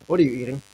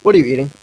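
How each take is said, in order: First: Said in the usual way. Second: Louder, rising question; louder repeat. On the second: Real, not acted. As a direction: say it again so they hear you.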